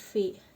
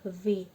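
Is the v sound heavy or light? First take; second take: light; heavy. First: The v sound is thin and light. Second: The v sound is thick and heavy. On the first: The speaker calls it wrong. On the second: The speaker calls it right. "V-nya dibaca tebal ya"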